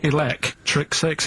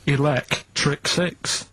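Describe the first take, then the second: First: Slowly repeated, Six lifted; slow again. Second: Drawn-out answer. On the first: Repeating answer for [name], slower still. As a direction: say Six with a rising lift. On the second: Answering [name]'s doubt, slowly drawn out. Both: Shown as a demonstration. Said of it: "don't say it like that".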